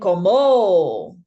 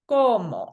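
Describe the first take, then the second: First: The stress is on the last syllable. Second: The stress is on the first syllable. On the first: The speaker calls it wrong. "We're not saying como" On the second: The speaker calls it right. "We go to the second to last vowel to give our pronunciation kind of emphasis"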